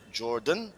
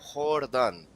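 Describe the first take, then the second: First: The initial J is clearly sounded. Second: The initial J is not sounded. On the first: The speaker calls it wrong. "not Jordan" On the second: The speaker calls it right. "it is actually Wilmar Jordan"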